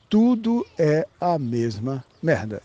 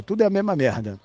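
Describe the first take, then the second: First: Slow, word by word for emphasis; drawn-out, deliberate restatement; slow emphatic repeat. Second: Said in the usual way. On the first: Real, not acted. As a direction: spell it out slowly, weighting each word.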